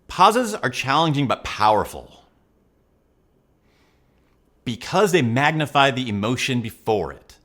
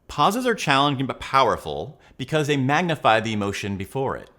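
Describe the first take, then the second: First: It has clear, deliberate pauses between phrases. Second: It runs on without any pauses.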